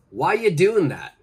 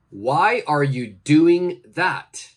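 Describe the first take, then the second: First: The word are is dropped in relaxed speech. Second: Every word is said in full, including are. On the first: "My pronunciation for this is" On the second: "Please use the pronunciation tips I gave you"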